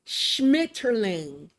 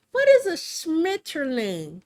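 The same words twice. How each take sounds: First: "Schmetterling" said slowly, every syllable drawn out as "SHMIT-er-ling"; over-enunciated. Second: Said in the usual way. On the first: Shown as a demonstration. Reading a German word off the screen, slowly over-enunciated. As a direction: sound out "Schmetterling" slowly, one careful syllable at a time. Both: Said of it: "I over enunciate trying to say Schmetterling".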